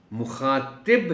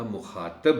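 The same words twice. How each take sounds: First: مخاطب with short i, mukhaatib; zer under toe. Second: مخاطب with short a, mukhaatab; zabar on toe. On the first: Teacher shows the spelling with zer, مخاطب said slowly as mukhaatib. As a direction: stretch مخاطب slowly, ending in -tib. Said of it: "توئے کے نیچے زیر کے ساتھ". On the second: Teacher shows the word with zabar, مخاطب said as mukhaatab. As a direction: end مخاطب in an open -tab. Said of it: "توئے پر زبر کے ساتھ". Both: Shown as a demonstration.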